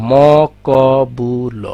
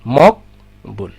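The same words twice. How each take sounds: First: মকবুল stretched very slowly as ম-ক-বু-ল; four-part spelling-out. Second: মকবুল slowly in two pieces, মক-বুল; two-syllable split. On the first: Teacher showing four parts, মকবুল very slow as mo-ko-bu-lo. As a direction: draw out each of the four letters in মকবুল. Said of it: "এখানে কিন্তু চারটা অংশ আছে". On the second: Teacher showing real pronunciation, মকবুল broken as mok-bul. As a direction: say মক, pause, then বুল for মকবুল. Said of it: "দুইভাবে উচ্চারণ করি". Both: Shown as a demonstration.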